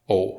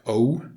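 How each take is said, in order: First: The vowel is pure with no w-like glide. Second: The vowel ends with an exaggerated w-like glide. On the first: The speaker calls it right. "if you then remove the W sound from that, you get the correct pronunciation" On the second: The speaker calls it wrong. "If you exaggerate this a bit, it would sound something like O"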